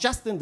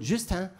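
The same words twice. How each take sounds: First: Said in the usual way. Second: "Justin" said the French way, nasal ending; French pronunciation. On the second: Shown as a demonstration. Comic showing name change from French class, French "Justin". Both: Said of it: "mit der französischen Version ihres Namens".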